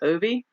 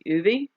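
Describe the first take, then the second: First: The name begins with an 'oh' vowel. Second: The name begins with an 'oo' vowel. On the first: The speaker calls it wrong. "I pronounced his name wrong" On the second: The speaker calls it right. "It's actually"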